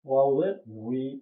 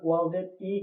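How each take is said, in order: First: The last syllable begins with a w-like sound. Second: The last syllable is a bare vowel 'i'. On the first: The speaker calls it right. "আমাদেরকে উচ্চারণ করতে হবে ওয়াউজের উই।" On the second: The speaker calls it wrong. "অনেকজন ওয়াউজের ই কয়, হ্যাঁ, এটা হয় না সঠিক উচ্চারণ।"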